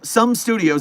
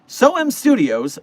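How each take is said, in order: First: The first word is said as one syllable. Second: The first word is said as two syllables. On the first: The speaker calls it right. "is actually how you say it" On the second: The speaker calls it wrong. "I keep saying SOIM because that's the way it's spelled"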